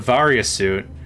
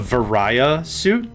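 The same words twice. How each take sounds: First: Varia does not rhyme with Mariah. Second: Varia rhymes with Mariah.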